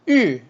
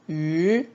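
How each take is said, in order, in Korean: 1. 음높이가 높은 데서 낮게 급격히 떨어져요. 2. 음높이가 높고 평평하게 유지돼요. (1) "사성" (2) "일성"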